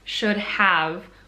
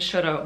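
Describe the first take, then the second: First: Both words are said fully and separately. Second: The second word shrinks to a short vowel sound. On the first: "What this is actually trying to say is should have" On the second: "when you're speaking really quickly, sometimes it comes out kind of like that"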